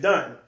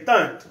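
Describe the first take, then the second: First: The word begins with a d sound. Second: The word begins with a th sound. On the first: The speaker is from Brooklyn. "in Brooklyn, they say done" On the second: The speaker is from Queensbridge. "Queensbridge, they say thun"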